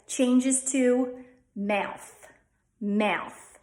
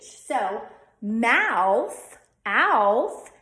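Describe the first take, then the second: First: "mouth" said with a stressed schwa; "mouth" said slowly with an "uh" vowel; Delco mouth. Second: Said in the usual way. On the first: Shown as a demonstration. Teacher shows "mouth" the Delco way, against the plain take. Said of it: "change to a stressed schwa". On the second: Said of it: "The A U diphthong, ow".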